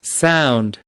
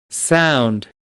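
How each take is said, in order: Both takes have the same delivery.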